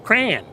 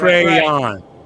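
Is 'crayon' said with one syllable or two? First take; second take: One; Two. First: The word is squeezed into one syllable. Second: The word is said with two full syllables. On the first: The speaker calls it wrong. "It's not a bitter berry that you use to make juice out of" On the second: The speaker calls it right. "it's a two syllable word"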